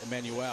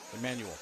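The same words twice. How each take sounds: First: The final L sound is clearly pronounced. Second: The final L sound is weak or dropped. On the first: The speaker calls it right. "They got to get the L" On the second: The speaker calls it wrong. "I was saying it wrong"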